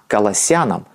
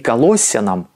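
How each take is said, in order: First: The stress falls on the -yan- suffix. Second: The stress falls on a syllable before -yan-. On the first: The speaker calls it right. "Ударение на суффикс" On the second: The speaker calls it wrong. "Не Колоссянам"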